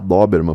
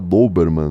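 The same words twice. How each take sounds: First: The first vowel O is open. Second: The first vowel O is closed. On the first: The speaker calls it wrong. "Na verdade não fala Doberman" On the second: The speaker calls it right. "Que o O em alemão é mais fechado"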